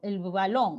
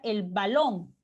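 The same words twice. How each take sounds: First: The b is soft, with air friction. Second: The b is a full stop closure. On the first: "hay un pequeño arrastre... Es como un, un arrastre del aire" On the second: "Podría hacer esa pronunciación oclusiva de la B"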